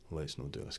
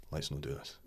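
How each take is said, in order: First: Whispered secret warning. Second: A low, soft warning; soft aside. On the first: To agent Biscuits during the Gretna pitch, whispered. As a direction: whisper it so the chairman can't hear. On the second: To agent Biscuits in the meeting, soft low aside. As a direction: murmur it to your agent. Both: Retold or imitated.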